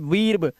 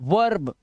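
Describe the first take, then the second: First: The vowel sounds like 'ee'. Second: The vowel sounds like 'er'. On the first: The speaker calls it wrong. "थोड़ी पढ़ोगे" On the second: The speaker calls it right. "अब ये आ हो गया है"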